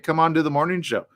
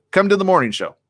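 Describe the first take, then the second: First: Said in the usual way. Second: Louder, emphatic invite. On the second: Shown as a demonstration. Host challenging Trump to come on the show, emphatic. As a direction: repeat "Come to the morning show" with more push, louder and higher. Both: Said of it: "That's my invite".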